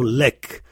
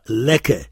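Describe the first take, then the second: First: It has the dialectal Arabic pronunciation. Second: It has the classical Arabic pronunciation. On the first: "on entend lek" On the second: "on n'entend pas lek en dialectal"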